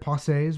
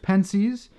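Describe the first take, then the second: First: The word is said with a French pronunciation. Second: The word is said with an English pronunciation.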